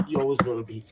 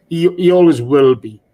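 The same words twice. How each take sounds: First: Much softer and quick, almost to himself; softly repeated. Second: Firm and louder, pressing "always"; emphatic. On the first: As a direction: let it fall away quietly, "always" barely pressed. Repeats tribute softly after firm take. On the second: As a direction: declare it firmly, hitting "always". Emphatic tribute, then repeated softly. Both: Real, not acted.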